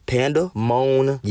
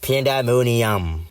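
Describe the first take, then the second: First: Slow, slightly raised, word in pieces; sounded out. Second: Slow, badly faked French accent. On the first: Giving the example words in your cranium, slowly sounded out. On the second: Showing how to guess the word, badly faked French accent. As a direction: stretch "Pandemonium" out in mock French. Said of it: "let me see it in a French accent". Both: Shown as a demonstration.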